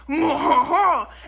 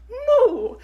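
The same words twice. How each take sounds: First: It is a moo in a French accent. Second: It is a moo in an Italian accent.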